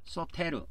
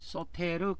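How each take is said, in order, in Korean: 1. 이 단어는 끝에 'reu' 음절이 따로 있습니다. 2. 이 단어는 끝에 'reu' 음절이 따로 있습니다.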